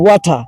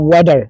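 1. শব্দটি ব্রিটিশ ইংরেজি উচ্চারণে বলা হয়েছে। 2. শব্দটি আমেরিকান ইংরেজি উচ্চারণে বলা হয়েছে। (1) "ব্রিটিশে" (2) "আমেরিকানরা বলে"

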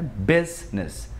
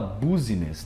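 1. A palavra é dita com duas sílabas. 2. A palavra é dita com três sílabas. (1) "É business" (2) "Ninguém fala business"

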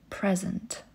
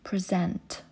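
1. Akcent pada na pierwszą sylabę. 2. Akcent pada na drugą sylabę.

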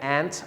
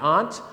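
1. คำนี้ออกเสียงเหมือน 'ant' แบบอเมริกัน 2. คำนี้ไม่ได้ออกเสียงเหมือน 'ant'

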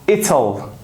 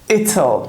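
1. Will kısaltılır ve zamirle birleştirilir. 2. Will kısaltılır ve zamirle birleştirilir.

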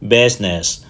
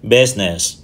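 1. Từ này được phát âm với hai âm tiết. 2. Từ này được phát âm với hai âm tiết.

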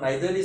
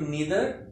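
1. पहला स्वर 'eye' जैसा बोला जाता है। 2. पहला स्वर 'ee' जैसा बोला जाता है। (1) "नीदर भी होता है और नाइदर भी होता है" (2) "नीदर भी होता है और नाइदर भी होता है"

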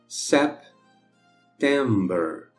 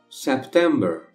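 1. A palavra September é dita devagar. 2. A palavra September é dita em velocidade normal. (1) "uma vez devagarinho" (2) "a outra normal"

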